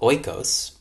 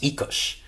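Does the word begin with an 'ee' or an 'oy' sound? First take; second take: oy; ee. First: The word begins with an 'oy' sound. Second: The word begins with an 'ee' sound. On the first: The speaker calls it wrong. "You've been pronouncing it wrong your whole life" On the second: The speaker calls it right. "It's actually pronounced Oikos"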